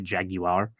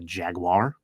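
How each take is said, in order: First: The word is said the European way. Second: The word is said the American way. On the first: "pronounced in Europe as jaguar" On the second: "In America, we pronounce it a jaguar"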